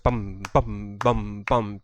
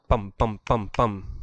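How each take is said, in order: First: Each drum sound is held a bit longer. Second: Each drum sound is short and clipped.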